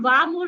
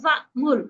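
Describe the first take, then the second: First: The word runs straight into mur without a catch. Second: A glottal catch comes before mur. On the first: The speaker calls it wrong. "तो हम वाह मुर नहीं कहेंगे" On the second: The speaker calls it right. "हमजा फिर भाग के फिर वापस आ जाएगा"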